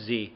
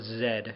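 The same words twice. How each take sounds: First: The letter is said 'zee', American style. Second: The letter is said 'zed', Canadian style.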